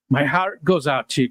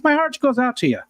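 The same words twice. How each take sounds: First: Said in the usual way. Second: "My heart goes out to you" in a higher, hammed-up Irish lilt; Irish accent. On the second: Shown as a demonstration. Streamer redoes his condolence to Kelly, hammed-up Irish accent. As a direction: play a stage Irishman offering sympathy. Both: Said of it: "it sort of sounded Irish there".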